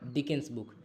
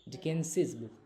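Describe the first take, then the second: First: The name ends without an extra syllable. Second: The name ends with an extra 'iz' syllable. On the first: "जब आप सिर्फ S लगाएंगे तो उसको आप पढ़ेंगे सीधे डिकेंस" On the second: "जब आप एपोस्ट्रॉफी के साथ एस भी लगा देंगे तो इसका प्रोनाउंसिएशन चेंज हो जाएगा"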